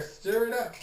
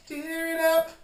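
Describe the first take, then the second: First: Said in the usual way. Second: Much higher and louder, a gleeful cry; loud excited urging. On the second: Shown as a demonstration. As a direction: push them on with a joyful burst. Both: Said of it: "Get in there".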